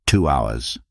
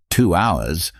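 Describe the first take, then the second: First: Two hours. said low and falling, final; flat falling statement. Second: Two hours? rising at the end in mild disbelief; surprised echo. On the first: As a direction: drop the pitch on Two hours. like a plain fact. Chen states his elevator time. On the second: Narrator echoes in disbelief. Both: Acted.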